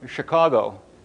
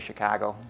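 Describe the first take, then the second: First: The city name is said in careful standard form. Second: The city name is said in local Chicago accent. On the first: "I said it right that time" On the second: "usually I say Chicago"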